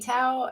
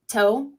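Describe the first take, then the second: First: The name does not sound like toe. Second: The name sounds like the word toe. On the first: "I want to say Tao" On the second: "You said to say it like toe"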